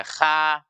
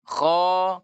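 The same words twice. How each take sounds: First: "kha" with a thin, open front a; kha tipis, salah. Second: "Kho" with a heavy back-of-tongue kh and dark vowel; kho tebal. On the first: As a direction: say "kha" light, without thickening. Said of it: "tidak dibaca kha". ("kha" dibaca tipis) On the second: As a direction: say "Kho" thick, as in Arabic. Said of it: "huruf kho itu dengan tebal". ("Kho" dibaca tebal) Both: Shown as a demonstration.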